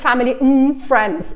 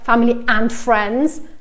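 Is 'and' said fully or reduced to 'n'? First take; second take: reduced; full. First: 'And' is reduced to a short 'n' sound. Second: 'And' is pronounced fully with its vowel. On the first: The speaker calls it right. "is always family and friends" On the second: The speaker calls it wrong. "So it's never like"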